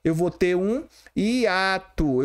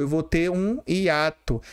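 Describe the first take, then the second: First: Eu vou ter um hiato, said slowly and deliberately; teacher slowing down on eu vou ter um hiato; slow emphatic demo. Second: Said in the usual way. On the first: Shown as a demonstration. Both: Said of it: "no lugar de ter um ditongo crescente".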